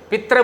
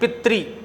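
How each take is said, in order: First: The word ends with a 'ra' sound. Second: The word ends with a 'ri' sound. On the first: The speaker calls it wrong. "पित्र बोल देते हैं" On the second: The speaker calls it right. "लेकिन पितृ"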